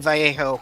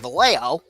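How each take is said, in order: First: The name is given a Spanish-style pronunciation. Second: The name is given an English-style pronunciation. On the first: The speaker calls it right. "I'm trying to pronounce it correctly" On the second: The speaker calls it wrong. "instead of going Vallejo, which I used to do"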